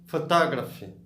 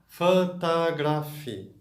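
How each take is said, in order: First: The word is said quickly. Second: The word is said slowly. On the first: "Mais rápido agora" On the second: "devagar primeiro"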